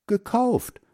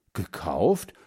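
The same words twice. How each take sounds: First: GEKAUFT said very high, as an answer; boy piping up with a high reply; high-pitched answer. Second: GEKAUFT pitched low, rising at the end; questioning echo. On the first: First boy answers mother's question. (hohe, kindliche Antwort) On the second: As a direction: echo GEKAUFT lower, ending on an upward lilt. Second boy echoes the answer. (GEKAUFT tief ansetzen, fragend heben) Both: A narrator's reading.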